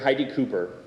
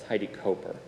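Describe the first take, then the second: First: The surname's first vowel is an 'ooh' sound. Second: The surname's first vowel is not an 'ooh' sound. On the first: The speaker calls it wrong. "like um, hoop or whatnot, with the, the sort of the ooh sound" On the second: The speaker calls it right. "I was very gently corrected"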